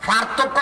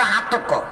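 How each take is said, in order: First: Said in the usual way. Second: "হাতক্য" with h in place of the first p; Noakhali h sound. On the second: Shown as a demonstration. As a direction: start "হাতক্য" on h, Noakhali style. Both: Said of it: "হ উচ্চারণ করে".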